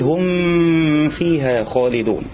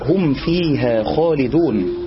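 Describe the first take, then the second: First: The m is blurred into the following sound. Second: The m is pronounced fully and clearly. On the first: The speaker calls it wrong. "لا أن نقول" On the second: The speaker calls it right. "فلا تحقق الإظهار تحقيقا تاما"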